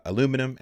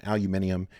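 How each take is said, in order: First: Said in the usual way. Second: Aluminium said the British way, five syllables, stress on MIN; aluminium as al-yoo-MIN-ee-um, not the American aluminum; British pronunciation. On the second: Shown as a demonstration. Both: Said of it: "if you grew up speaking British English".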